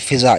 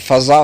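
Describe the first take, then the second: First: The first syllable has an 'i' vowel. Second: The first syllable has an 'a' vowel. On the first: This is how people commonly say it. "उर्फ़ आम में चूँकि फ़िज़ा मशहूर है इसलिए वो भी सही है" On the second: This is the word's original form. "इसका भी असल तलफ़ुज़ फ़ज़ा है"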